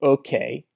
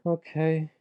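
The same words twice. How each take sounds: First: It is said in a smug, annoying way. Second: It is said in a sad, depressed way.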